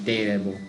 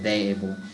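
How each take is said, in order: First: The first syllable sounds like 'day'. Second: The first syllable sounds like 'they'. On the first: "I'm almost saying it like day instead of they" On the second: "instead of they able"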